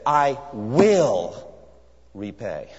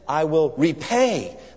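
First: The stress is on "will". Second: The stress is on "repay".

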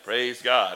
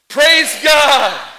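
First: It is said flatly, without feeling. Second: It is said warmly, with strong feeling. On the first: It is said by rote, with the mind elsewhere. The speaker calls it wrong. "That's why your praise God was like" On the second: It is meant sincerely, out of gratitude. The speaker calls it right. "think of something God has done for you and say it with me"

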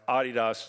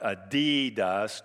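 First: Adidas is pronounced the European way. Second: Adidas is pronounced the American way. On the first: The speaker calls it right. "In Europe, it's pronounced Adidas" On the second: The speaker calls it wrong. "It's not Adidas"

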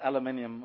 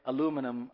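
First: It is said in his own accent, as aluminium. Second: It is said the local way, as aluminum. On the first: This is how the speaker says it. "I say aluminium or something like that" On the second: This is how people here say it. "I don't say aluminum"

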